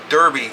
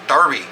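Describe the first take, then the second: First: The first vowel sounds like 'er'. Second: The first vowel sounds like 'ar'. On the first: The speaker calls it right. "There's no A in it, it's an E" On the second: The speaker calls it wrong. "you guys say Derby as Darby"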